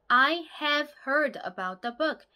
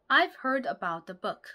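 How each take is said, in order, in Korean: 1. 'have'라는 단어는 완전하고 또렷하게 발음됩니다. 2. 'have'라는 단어는 'v' 소리로 줄어듭니다. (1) "have를 또렷하게 발음하는 것" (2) "v 이렇게만 간단하게 소리가 난다"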